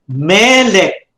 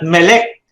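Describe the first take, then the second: First: The stress is on the first syllable. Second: The stress is on the second syllable. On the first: The speaker calls it right. "the accent on the first syllable" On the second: The speaker calls it wrong. "Not melek"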